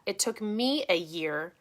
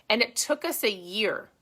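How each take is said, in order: First: "me" lifted and drawn out; slow correction, leaning on "me"; stress on "me". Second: Said in the usual way. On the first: Real, not acted. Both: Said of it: "let me rephrase that".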